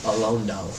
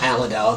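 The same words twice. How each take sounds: First: "Alondale" said as a-LON-dal, softly; "Alondale" with a long o in the middle; correct name Alondale. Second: "Allendale" said like Allen-dale; "Allendale" with an Allen start; wrong name Allendale. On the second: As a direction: mispronounce it as "Allendale". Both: Shown as a demonstration. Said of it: "not Allendale, it's Alondale".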